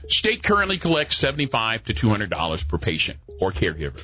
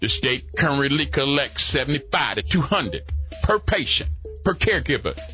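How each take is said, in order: First: It is read at a normal pace. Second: It is read slowly and deliberately.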